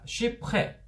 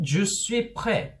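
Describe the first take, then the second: First: The word je is shortened, almost dropped. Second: The word je is said fully and clearly.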